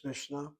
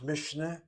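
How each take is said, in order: First: Mishnah as MISH-nuh, ending lifted; Mishnah kept tight, with no vowel in the middle; preferred two-syllable Mishnah. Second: Mishnah as MISH-uh-nuh, ending lifted; Mishnah opened out into mish-uh-nah; three-syllable Mishnah. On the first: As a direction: join sh directly to n in Mishnah. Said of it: "the better one is Mishnah". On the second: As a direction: put a small vowel between sh and n in Mishnah. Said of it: "two different pronunciations". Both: Shown as a demonstration.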